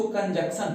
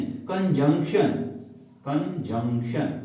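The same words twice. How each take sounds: First: कंजंक्शन said as "kanjeksan", with no ng sound and a plain s; wrong pronunciation. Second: कंजंक्शन said slowly and carefully as "kanjunkshan"; correct pronunciation. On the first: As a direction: mispronounce कंजंक्शन the way some students do, as "kanjeksan". (कंजंक्शन को ग़लत "कंजेक्सन" बोलना) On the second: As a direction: model कंजंक्शन clearly, with the ng before the k and a sh at the end. (धीरे और साफ़ "कंजंक्शन" सही उच्चारण) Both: Shown as a demonstration. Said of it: "कंजंक्शन नहीं".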